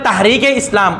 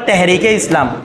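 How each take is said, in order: First: The first vowel is an open 'a' sound. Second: The first vowel is an 'e' sound. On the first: This is how Bengali speakers say it. "আমরা বলি তাহরিকে ইসলাম" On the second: This is how Urdu speakers say it. "ওরা বলে তেহরিকে ইসলাম"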